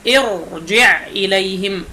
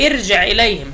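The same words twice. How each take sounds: First: ارجع said with a thick, full-mouthed ra; correct heavy ra. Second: ارجع said with a light, thin ra, the mistake; wrong thin ra. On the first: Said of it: "بهذا التفخيم هكذا". (ارجع براء مفخمة صحيحة) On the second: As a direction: demonstrate the error: ارجع with a thin ra. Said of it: "لا تقل". (ارجع براء مرققة خطأً) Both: Shown as a demonstration.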